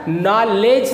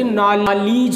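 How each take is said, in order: First: The second vowel sounds like 'eh'. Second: The second vowel sounds like 'ee'. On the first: The speaker calls it wrong. "नॉलेज नहीं होता" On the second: The speaker calls it right. "बल्कि नॉलीज होता है"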